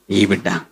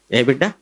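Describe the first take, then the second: First: ఈ బిడ్డ answered low and firm, the word ఈ stressed, with a falling tune. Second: ఏ బిడ్డ asked as a question, ఏ stressed and the tune lifting at the end; asking which child. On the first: Preacher answering his own question, stressing ఈ in ఈ బిడ్డ. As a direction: answer ఈ బిడ్డ, leaning on ఈ and letting the tune drop. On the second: Preacher quizzing the congregation, ఏ బిడ్డ asked with a rising question. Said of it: "ఈ బిడ్డ ఎలాంటి వాడగునో". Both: Shown as a demonstration.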